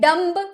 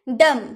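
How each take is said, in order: First: A b sound is heard at the end. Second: No b sound is heard at the end. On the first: The speaker calls it wrong. "डम्ब बोलना से सही रहेगा नहीं ना" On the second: The speaker calls it right. "बी चुप रहते हैं"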